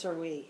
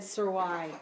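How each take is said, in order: First: The word ends with an 'ee' sound. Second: The word ends with an 'eye' sound. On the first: The speaker calls it right. "and it's" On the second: The speaker calls it wrong. "That song is said"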